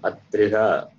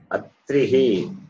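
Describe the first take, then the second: First: The word ends with an echoing 'ah' sound. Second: The word ends with an echoing 'ee' sound. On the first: The speaker calls it wrong. "It is not Atriha" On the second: The speaker calls it right. "Visarga takes a sound of E"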